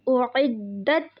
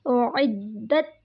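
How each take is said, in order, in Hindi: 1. d की आवाज़ देर तक रोकी जाती है और डबल है। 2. d की आवाज़ देर तक रोकी जाती है और डबल है।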